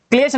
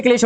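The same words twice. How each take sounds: First: क्लेश ending in plain s; mistaken s. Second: क्लेश ending in sh; corrected sh. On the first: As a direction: end क्लेश on a dental s. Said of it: "नहीं होता". (क्लेश, अंत में स) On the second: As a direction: end क्लेश on a clear sh. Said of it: "ये क्लेश होता है". (क्लेश, अंत में श) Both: Shown as a demonstration.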